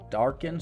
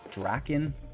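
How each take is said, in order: First: The R sound comes after the first vowel. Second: The R sound comes before the first vowel. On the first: The speaker calls it right. "R's in the wrong spot there" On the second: The speaker calls it wrong. "Pardon my pronunciation"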